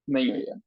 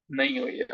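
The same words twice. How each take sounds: First: नहीं हुई है low with a falling settled tune; flat confirmation. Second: नहीं हुई है with high rising question tune; questioning echo. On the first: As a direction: state नहीं हुई है as a resigned fact. Teacher confirms students' reply. (गिरते सुर में मान लेना: नहीं हुई है) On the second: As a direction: toss नहीं हुई है back as a surprised question. Teacher echoes students' reply. (उठती आवाज़ में सवाल: नहीं हुई है?) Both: Shown as a demonstration.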